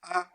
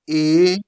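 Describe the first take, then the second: First: The letter is said the Italian way, 'ah'. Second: The letter is said the English way, 'ay'. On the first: "It is pronounced A" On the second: "What we call in English A"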